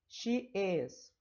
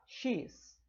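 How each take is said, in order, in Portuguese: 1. As duas palavras são ditas por completo. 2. As palavras são encurtadas numa só sílaba.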